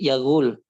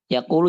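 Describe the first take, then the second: First: The second consonant is a hard g sound. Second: The second consonant is a deep q sound.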